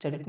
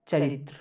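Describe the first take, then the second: First: चरित said without the त्र ending, then rejected; wrong short form. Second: चरित्र said with the full त्र ending; pronouncing चरित्र. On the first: Teacher contrasting wrong चरित with चरित्र. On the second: Teacher correcting चरित to चरित्र, full त्र ending. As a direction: say चरित्र with the त्र clearly at the end. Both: Shown as a demonstration. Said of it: "चरित नहीं, चरित्र ही".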